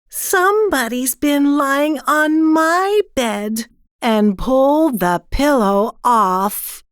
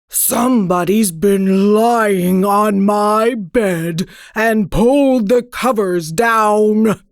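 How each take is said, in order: First: It is said in a middle-sized voice. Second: It is growled in a great big voice.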